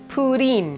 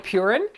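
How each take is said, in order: First: The middle consonant is a d sound. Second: The middle consonant is an r-like flap. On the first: The speaker calls it right. "but it's pudding" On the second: The speaker calls it wrong. "I'm going purin"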